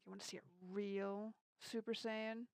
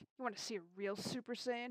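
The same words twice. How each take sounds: First: The word real is strongly emphasized. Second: It is said quickly without stressing real. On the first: The speaker calls it right. "he like put emphasis on the word like "real,"" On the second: The speaker calls it wrong. "He said it like faster"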